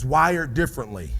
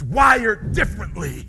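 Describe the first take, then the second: First: It is said flatly, with little energy. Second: It is said forcefully, with lots of energy. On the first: The speaker does not really believe it. The speaker calls it wrong. "you just said it like you would work a nine to five" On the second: The speaker truly believes it. The speaker calls it right. "I'm gonna show you. Listen to me"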